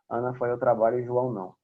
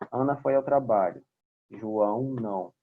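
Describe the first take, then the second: First: Only a very short pause separates the clauses. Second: A longer pause separates the two clauses. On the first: The speaker calls it wrong. "se eu falar com uma vírgula, vai ficar assim" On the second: The speaker calls it right. "No ponto e vírgula já tem que dar uma respirada um pouquinho maior"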